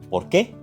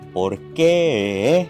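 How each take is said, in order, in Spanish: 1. Se dice de forma simple, con un tono estable. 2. Se alarga, sube y baja, con un ligero vibrato.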